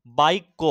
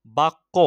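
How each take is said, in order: First: বাক্য said as "baikko"; বাক্য with an "ai" vowel, baik-ko; i-glide before kk. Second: Said in the usual way. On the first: Shown as a demonstration. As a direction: slip a short i in before the kk of বাক্য. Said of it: "যুক্ত ব্যঞ্জনের আগে হস্যই ধ্বনির উচ্চারণ হচ্ছে". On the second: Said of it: "হস্যই ধ্বনির উচ্চারণ হচ্ছে".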